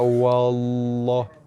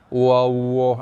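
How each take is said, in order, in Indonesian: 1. L-nya tebal dan diucapkan dengan jelas. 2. L-nya lemah, tanpa sentuhan lidah yang penuh. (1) "dibaca dengan tebal" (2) "tak sentuh pun, tak masuk rumah lam ... tak jadi"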